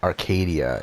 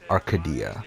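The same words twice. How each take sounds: First: It is said with an American-style pronunciation. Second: It is said with a Greek-style pronunciation. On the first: The speaker calls it wrong. "same thing" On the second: The speaker calls it right. "they just emphasize different things than what you would like a, like an American would"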